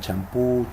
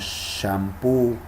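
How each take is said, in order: First: The word begins with a stopped 'ch' sound. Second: The word begins with a hissing 'sh' sound. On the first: "aunque algunos pronuncian champú" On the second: "las sh, ... en algunos préstamos como shampoo"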